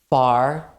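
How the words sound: It is said in an American accent, R pronounced.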